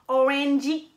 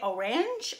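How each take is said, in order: First: The word is said with a Japanese accent. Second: The word is said with an English accent. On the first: "ils vont dire euh, orangey" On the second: "en anglais orange"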